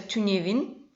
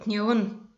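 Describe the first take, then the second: First: All syllables are said fully, with the first vowel. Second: The first vowel is dropped, so it sounds shorter. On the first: This is how the word is written. "пишется тюневин" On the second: This is how people usually say it in speech. "но мы часто говорим тневун"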